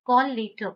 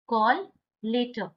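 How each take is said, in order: First: Said in the usual way. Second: "call" rising, a pause, then "later"; word-by-word model. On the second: Shown as a demonstration. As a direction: split "call" and "later" for learners. Teacher repeats it word by word.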